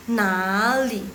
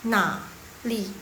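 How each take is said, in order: First: "nali" joined, "na" drawn out and rising into "li"; flowing, linked "nali"; smooth tone change. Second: Halting, unlinked "na... li"; unsmooth tone demo. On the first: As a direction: glide slowly through "nali", second tone on "na". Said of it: "ya kan lebih sun kan". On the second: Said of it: "Coba, coba kalian dengar". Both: Shown as a demonstration.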